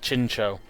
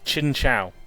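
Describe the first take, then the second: First: The last syllable ends in a plain 'oh'. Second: The last syllable does not end in plain 'oh'. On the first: This follows the Japanese origin. The speaker calls it right. "not Chincho" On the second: This is the official pronunciation. The speaker calls it wrong. "insist on pronouncing it Chinchou"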